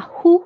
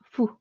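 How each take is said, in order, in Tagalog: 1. Ang pantig ay nagsisimula sa tunog na h. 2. Ang pantig ay nagsisimula sa tunog na parang f. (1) "instead of H U na hu" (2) "parang F and U sound, fu"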